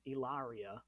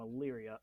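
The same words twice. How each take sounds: First: The name is said an outsider's way. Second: The name is said the local way. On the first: This is how someone else said the name. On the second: This is how residents say the name.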